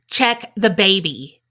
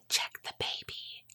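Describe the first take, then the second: First: It is said loudly, not whispered. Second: It is said in a quiet whisper.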